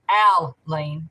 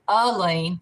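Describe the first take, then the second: First: The first syllable sounds like al. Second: The first syllable sounds like uh. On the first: "like A L L Y N E" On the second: "which would be like U H L E A N"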